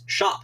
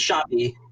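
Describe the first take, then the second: First: It is said as one syllable, ending on p. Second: It is said as two syllables, ending in ee. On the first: This is the pronunciation the speaker always assumed. "I always thought that the Old English pronunciation of S H O P P E was" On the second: This is the pronunciation heard in the film. "he says shoppy"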